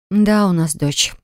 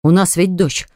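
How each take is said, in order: First: Slow, weary sigh of agreement. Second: Said in the usual way. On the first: A narrator's reading. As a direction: concede it with a heavy sigh. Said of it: "вздохнула Кира". (со вздохом, медленно и устало)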